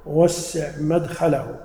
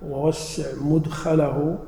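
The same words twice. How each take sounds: First: مدخله said "madkhalahu", with a after the mim; slow reading, open first vowel in مدخله; fatha on the mim. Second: مدخله said "mudkhalahu", with u after the mim; slow reading, rounded first vowel in مدخله; damma on the mim. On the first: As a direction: slowly say "madkhalahu", opening on "mad". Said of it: "إذا قلنا بالفتح". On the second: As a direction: slowly say "mudkhalahu", opening on "mud". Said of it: "ضبطناها بالضم". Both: Shown as a demonstration.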